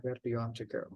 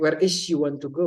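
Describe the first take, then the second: First: "do" stressed, said much softer; correct version. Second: "is" stressed with a rising pitch; wrong version. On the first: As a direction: quietly stress "do" as the right form. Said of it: "Jadi yang benar adalah". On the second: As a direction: lean on "is", the wrong verb, with a questioning lift. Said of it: "maka itu salah ya". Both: Shown as a demonstration.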